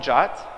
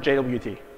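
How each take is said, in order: First: It is said as one word, jot. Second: It is spelled out as three letters. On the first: The speaker calls it wrong. "some people call it J O T" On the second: The speaker calls it right. "That's how they're called"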